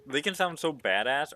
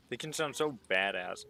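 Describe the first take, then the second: First: Louder and higher, selling "badass" with relish; louder hyped repeat. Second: Said in the usual way. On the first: Shown as a demonstration. Gamer to chat, hyping Australian accents, louder and higher. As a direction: hype up "can" and "badass". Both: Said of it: "repeats it punchier".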